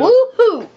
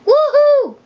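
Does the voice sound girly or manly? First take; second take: manly; girly. First: It is said in a deeper, manly voice. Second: It is said in a high, girly voice.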